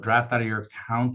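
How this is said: It sounds hesitant and halting, like a question. The speaker is unsure of the process. The speaker calls it wrong. "You can make it sound like a question"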